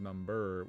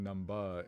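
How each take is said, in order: First: The word ends in an 'er' sound. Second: The word ends in an open 'ah' sound.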